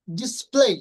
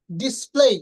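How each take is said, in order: Both takes have the same delivery.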